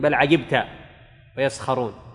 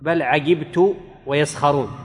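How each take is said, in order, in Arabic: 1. ينتهي الفعل بصوت 'ta'. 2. ينتهي الفعل بصوت 'tu'. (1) "قراءتنا قراءة عاصم ... أي للنبي عليه الصلاة والسلام" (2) "قراءة حمزة والكسائي وخلف"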